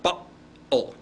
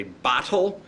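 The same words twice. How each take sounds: First: Cockney "Bottle" with a glottal catch in place of the t; Cockney glottal stop. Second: Said in the usual way. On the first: Shown as a demonstration. Teacher repeating a Cockney example for students, "Bottle" said with a glottal stop. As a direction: drop the t of "Bottle" into a catch in the throat. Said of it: "did you hear that glottal stop". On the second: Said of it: "British Cockney accent".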